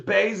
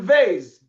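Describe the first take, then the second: First: The first consonant has the hard pronunciation. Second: The first consonant has the soft pronunciation. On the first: "Beis is the is the um the hard pronunciation" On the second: "Vase is the soft one"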